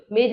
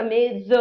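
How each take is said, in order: First: मेज with the ज said as a plain j, like "mej"; wrong pronunciation. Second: मेज with the ज said as a z, like "mez"; z sound pronunciation. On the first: Teacher shows students the wrong j sound in मेज. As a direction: say मेज ending in a j sound as in jam. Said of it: "मेज नहीं होता". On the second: Teacher shows students the correct z sound in मेज. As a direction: end मेज on a buzzing z, as in zebra. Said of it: "जेड वाला". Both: Shown as a demonstration.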